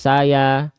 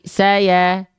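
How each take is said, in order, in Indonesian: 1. Bunyi vokal A terdengar tebal dan terbuka. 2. Bunyi vokal A terdengar tipis dan tersenyum. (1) "Bukan saya" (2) "tapi saya. Saya the the saya sambil senyum sedikit"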